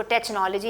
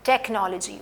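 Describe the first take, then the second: First: टेक्नोलॉजी said with a ch sound, like "tech" turned "tetch"; wrong pronunciation. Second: टेक्नोलॉजी with a hard k sound, "tek-no-lo-ji"; correct pronunciation. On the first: Teacher showing students the mistake, टेक्नोलॉजी with ch. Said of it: "इसको टेक्नोलॉजी नहीं कहा जाता". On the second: Teacher giving students the right टेक्नोलॉजी, hard k. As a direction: say टेक्नोलॉजी with a clear k, not ch. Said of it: "टेक, टच नहीं है मैं कह रही". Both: Shown as a demonstration.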